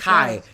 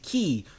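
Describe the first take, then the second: First: The vowel sounds like 'eye'. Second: The vowel sounds like 'ee'. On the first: The speaker calls it right. "when it comes to a K and a Y, you pronounce it" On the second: The speaker calls it wrong. "You don't pronounce it"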